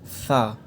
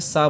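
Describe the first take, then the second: First: It begins with a th sound, tongue against teeth. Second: It begins with a plain hissing s sound. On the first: The speaker calls it right. "आपके ऊपर के दांत आपकी ज़बान पे लगने चाहिए" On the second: The speaker calls it wrong. "बहुत से लोग गलती क्या करते हैं कि इसको नॉर्मली पढ़ देते हैं"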